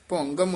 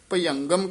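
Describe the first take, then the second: First: The word begins with a 'bhu' sound. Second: The word begins with a 'bhya' sound. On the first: The speaker calls it right. "ਭੁਅੰਗਮ ਉਚਾਰਨ ਕਰਨਾ ਹੈ" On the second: The speaker calls it wrong. "ਆਮ ਪਾਠੀ ਸਿੰਘ ਭਯੰਗਮ ਕਹਿ ਜਾਂਦੇ ਨੇ"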